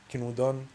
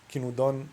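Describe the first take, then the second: No difference in how they are said.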